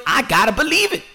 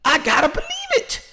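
First: High emphasis. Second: "believe" lifted far higher on the repeat. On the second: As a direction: push "believe" up into a high squeal. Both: Shown as a demonstration.

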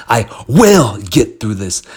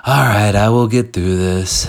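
First: WILL punched loud and drawn out; slow, forceful vow hitting the word will; passionate, with power. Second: Said straight through without punching WILL; half-hearted affirmation. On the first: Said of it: "You have to say". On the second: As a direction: toss off the affirmation without conviction. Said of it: "You can't just say, like". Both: Shown as a demonstration.

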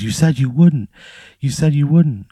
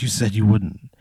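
First: Higher, mock-screamed accusation, held back; retold screaming reproach. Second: Understated crying wife, no real sobs; retold tearful reproach. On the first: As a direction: imitate an upset wife raising her voice. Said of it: "she just starts screaming at you". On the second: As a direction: voice a hurt wife at normal volume. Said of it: "she just starts crying".

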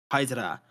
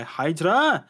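First: Hydra said with a dropped H, a lightly put-on German accent; a quick throwaway German accent on Hydra, barely changed from the normal voice; terrible German accent. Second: Said in the usual way. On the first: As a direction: say Hydra as aidra in a mild mock German accent. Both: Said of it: "that was my terrible German accent".

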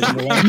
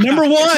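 First: Said in the usual way. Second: High, loud mock call of a title; mock hail. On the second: Host humouring a guest's requested nickname, high playful shout.

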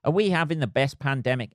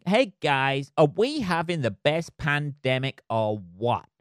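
First: Said in the usual way. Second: Hammed-up American accent; bad American accent. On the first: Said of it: "in the worst American accent ever". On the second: Vlogger hailing the guys about the pandemic, bad American accent. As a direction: put on a terrible, over-keen American accent. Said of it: "he says in the worst American accent ever".

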